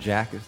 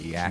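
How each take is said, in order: First: The word begins with a J sound. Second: The word begins with a Y sound. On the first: "Instead of saying jackets" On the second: "they say yak"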